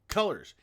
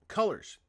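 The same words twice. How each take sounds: Both takes have the same delivery.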